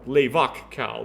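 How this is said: It is pronounced with Romance-style vowels.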